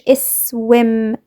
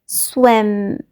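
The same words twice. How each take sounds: First: A short vowel is added before the s. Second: The word starts directly with the s sound. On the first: The speaker calls it wrong. "قلتش swim" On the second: The speaker calls it right. "لا swim"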